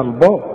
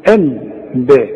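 First: الباب with a heavy ا, the wrong way; mock wrong reading. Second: الباب slow, with a thin ا; light ba. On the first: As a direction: say الباب thick and full. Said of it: "اوعى تقول لي بقى". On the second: Shown as a demonstration. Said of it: "زي ما تقول الباب على وزن الباب".

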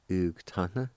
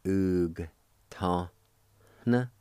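First: "ug ta na" run together as one word; natural-speed "ug ta na"; joined-up pronunciation. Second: "Oog ta. Na" in isolated syllables with pauses; held, separated syllables of "Oog ta. Na"; syllable-by-syllable pronunciation. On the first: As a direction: blend "ug ta na" without gaps. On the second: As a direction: sound out "Oog", "ta", "Na" one at a time. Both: Shown as a demonstration. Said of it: "pronounce the G sound with the U like this".

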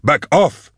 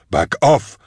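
First: Very high, frantic warning cry; escalated horrified yell. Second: Raised, high-pitched warning; horrified yell. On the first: Man repeating his warning in horror, frantic high yell. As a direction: push it higher, more frantic. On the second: Man facing approaching animations in horror, high yell. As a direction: call it out high, fending them off. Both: A narrator's reading. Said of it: "he yelled".

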